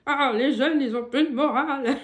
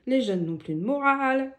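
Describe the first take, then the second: First: Put-on louder, laughing grumpy old man. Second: Said in the usual way. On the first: Shown as a demonstration. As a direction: play a grumbling old man, half laughing. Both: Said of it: "je leur fais avec une voix de vieux".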